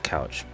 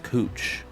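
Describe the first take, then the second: First: The vowel sounds like the one in 'cow'. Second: The vowel sounds like the one in 'moo'. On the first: The speaker calls it wrong. "at least it's spelled Couch" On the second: The speaker calls it right. "it's actually pronounced Cooch"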